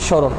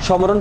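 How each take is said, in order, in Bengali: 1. প্রথম ব্যঞ্জনের পরে কোনো m ধ্বনি উচ্চারিত হয় না। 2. প্রথম ব্যঞ্জনের পরে m ধ্বনি উচ্চারিত হয়। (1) "এখানেও সেম ম উচ্চারণটা হয় না" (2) "সমরণ পড়ি না আমরা"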